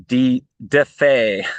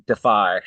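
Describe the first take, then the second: First: DeFi mistakenly said "deh-FAY", slowly; hesitate, then say DeFi ending in "fay"; stumbled pronunciation. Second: DeFi said "deh-FYE"; corrected pronunciation. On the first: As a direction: DeFi with second syllable rhyming with "day". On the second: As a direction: land DeFi with the ending rhyming with "eye". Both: Real, not acted. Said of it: "There we go".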